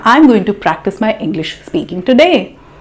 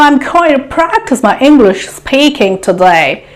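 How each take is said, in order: First: It uses a plain, neutral everyday accent. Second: It uses an exaggerated, put-on foreign accent. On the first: The speaker calls it right. "Isn't it sufficient?" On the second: The speaker calls it wrong. "You don't need to speak like that"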